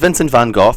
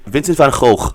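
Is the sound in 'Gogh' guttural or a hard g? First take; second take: hard g; guttural. First: Gogh is said with a hard English g. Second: Gogh is said with a throaty, rasping sound. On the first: The speaker calls it wrong. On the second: The speaker calls it right.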